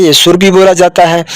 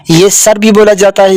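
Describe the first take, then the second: First: सुर said as "sur", with a short rounded u. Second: सर said as "sar", with a short open a. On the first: Teacher showing a child सुर as "sur" with a short u. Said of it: "पेश हो, तो ये हम बोलते हैं सुर". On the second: Teacher showing a child सर as "sar" with a short a. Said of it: "यानी सर हम कब बोलेंगे? जब उस पर ऊपर ज़बर हो". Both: Shown as a demonstration.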